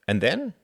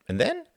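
First: "And then?" raised, rising at the end; questioning rise. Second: "And then?" pitched very high, rising; insistent questioning. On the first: Frederick asks about plans after graduation, questioning. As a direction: ask "And then?" with a lifted rise. Friend presses for an answer. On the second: Frederick presses Reginald about his plans, insistent and high. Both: A narrator's reading.

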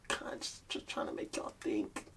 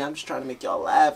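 First: Soft, breathy whispered afterthought; whispering. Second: Said in the usual way. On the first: Acted. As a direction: whisper it like a secret. Second take, whispered.

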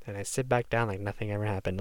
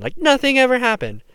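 First: Said in the usual way. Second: "ever" hit high and loud, falling; stress on EVER. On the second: Real, not acted. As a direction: push up on "ever", then let it drop. Repeats phrase with emphasis.

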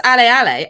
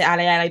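First: Cheering. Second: Said in the usual way. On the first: Shown as a demonstration. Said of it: "if someone says". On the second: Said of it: "I might say".

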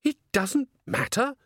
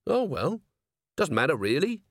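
First: High, incredulous echoed question; taken aback. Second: Mildly let-down, letting it go; sighing resignation. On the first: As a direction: throw it back high and stunned, rising at the end. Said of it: "felt that a leg had been kicked away". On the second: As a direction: let it go with a sigh in the voice. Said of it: "He sighed". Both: A narrator's reading.

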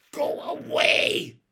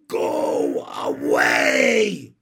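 First: High, loud, drawn-out shout; fierce little girl driving someone off. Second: Very loud, hugely drawn-out bellow; slow, full-force holler; shouted order. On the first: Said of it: "she said fiercely to the strange boy". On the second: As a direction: stretch each word into a long commanding yell. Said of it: "ordered Ramona". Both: A narrator's reading.

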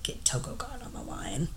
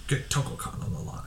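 First: Unvoiced, hushed command; whispered order. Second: Unvoiced repeat of the order; whispered echo. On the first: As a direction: breathe the order out like a scheming boss. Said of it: "He's like". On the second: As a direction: whisper it back in mock menace.

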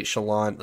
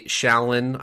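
First: Shallan stressed on the last syllable; second variant pronunciation. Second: Shallan stressed on the first syllable; first variant pronunciation. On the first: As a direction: say Shallan as "sha-LAHN". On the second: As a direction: say Shallan as "SHAL-un". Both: Shown as a demonstration. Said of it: "I don't care if you say".

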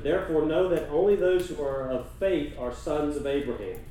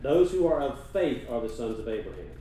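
First: Nadruk op "only", luider aangezet; stress on only. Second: "Those" vooraan aangezet, zonder "only"; stress on those. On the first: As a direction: lean hard on "only". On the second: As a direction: hit "Those" at the start. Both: Shown as a demonstration. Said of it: "Notice that?".

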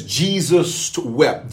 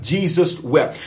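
First: Drawn out slowly, pausing on Jesus; slow scripture reading. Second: Said in the usual way. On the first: Shown as a demonstration. Pastor quoting the shortest verse to viewers, slow and weighty. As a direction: let "Jesus wept" hang, very slowly. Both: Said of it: "It says".

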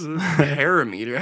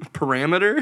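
First: Parameter drawn out as PARA-MEE-ter; mispronounced parameter. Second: Parameter stressed on RAM, rising; correct pronunciation. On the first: Mocking coworker's word, parameter said as PARA-meter. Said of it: "I was so confused". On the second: Correcting a coworker, parameter said as puh-RAM-iter. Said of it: "Oh, you're talking". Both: Retold or imitated.

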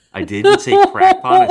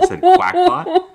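First: "crackpot" said loud and high, laughing in disbelief; host catches own slip, shouting "crackpot" through laughter; laughing stress on crackpot. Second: "quackpot" stretched out loud and high, laughing at the slip; host admits the pun, slowly hitting "quackpot" mid-laugh; laughing stress on quackpot. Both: Real, not acted.

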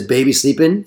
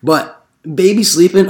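First: Said in the usual way. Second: Put-on "baby" stretched slowly and rising; drawn-out sign reading. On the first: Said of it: "where it says". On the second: Door knocker mocking the baby sleeping sign, slowly. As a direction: read "But baby sleeping" slowly, lifting "baby". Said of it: "no soliciting sign".

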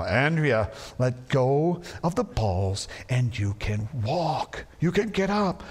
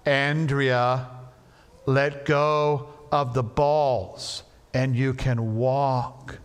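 First: Slow, exasperated dad; losing patience, slowly; irritated. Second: Slow and firm; firmer. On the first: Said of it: "more and more irritated". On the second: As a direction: lay down the law, slowly. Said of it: "a little bit firmer". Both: Retold or imitated.

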